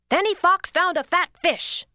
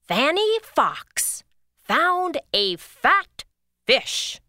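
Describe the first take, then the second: First: It is said very fast. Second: It is said at a normal pace.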